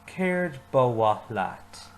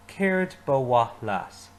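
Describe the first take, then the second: First: Very slow, clear repeat; slow repeat-after-me. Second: Slow, careful model line; teacher modelling slowly; slow model phrase. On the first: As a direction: lead the class slowly through it. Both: Shown as a demonstration. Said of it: "Say it with me".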